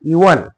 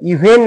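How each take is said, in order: First: The second syllable has a reduced, silent vowel. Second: The second syllable has a full 'e' vowel. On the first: The speaker calls it right. "ईचा उच्चार आपल्याला करायचा नाही" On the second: The speaker calls it wrong. "इव्हेन नाही"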